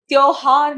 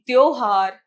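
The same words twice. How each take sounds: First: त्योहार split loudly as 'tyau-haar'; mispronounced word. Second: त्योहार as 'tyo-haar'; correct pronunciation. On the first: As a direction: widen the first vowel of त्योहार. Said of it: "नहीं". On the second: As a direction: round the o in त्योहार, said loudly. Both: Shown as a demonstration.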